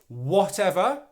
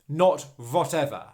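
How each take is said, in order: First: The word begins with a W sound. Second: The word begins with a V sound. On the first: The speaker calls it right. "making the W sound at the beginning of this word" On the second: The speaker calls it wrong. "and not making a V sound"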